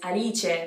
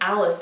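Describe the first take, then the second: First: It is said with an Italian accent. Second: It is said with an English accent. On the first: "The next name is Alice" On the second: "which is Alice in English"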